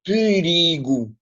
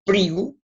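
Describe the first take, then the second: First: "perigo" with the first syllable fully voiced, pe-ri-go; pełna wymowa sylab. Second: "perigo" with the first vowel swallowed, like "prigo"; zredukowana samogłoska. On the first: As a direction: spell out every vowel of "perigo", drawn out. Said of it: "nós não pronunciamos perigo". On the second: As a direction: say "perigo" as in casual speech, the "e" nearly silent. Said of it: "Aqui perigo não se nota". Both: Shown as a demonstration.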